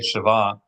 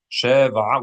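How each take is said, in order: First: The stress is on the last syllable. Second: The stress is on the first syllable. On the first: It means something equal. "the only difference is accent" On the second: It means seven. "when you accent the first"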